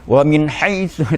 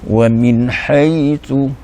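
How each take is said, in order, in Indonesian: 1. Suku kata 'hai' diucapkan secara tiba-tiba dan keras. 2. Suku kata 'hai' dilafalkan dengan mengalir dan lembut. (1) "tak boleh diterkam terkam terjah gitu" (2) "dibaca dengan lembut"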